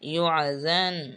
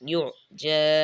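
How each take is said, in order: First: The word ends with an n sound. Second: The word ends with a long vowel. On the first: "জাল দুই জবর দান ইউআজান" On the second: "এখানে আয়াত শেষ হওয়ার কারণে দুই জবরের মধ্যে এক জবর বাদ যাবে, এই জন্য ইউজা ইউজা এভাবে উচ্চারিত হবে"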